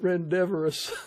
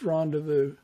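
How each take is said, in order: First: The word is pronounced with extra added sounds. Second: The word is pronounced in the standard way. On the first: The speaker calls it wrong. "all this time I'd been calling it" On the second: The speaker calls it right. "the proper way to pronounce"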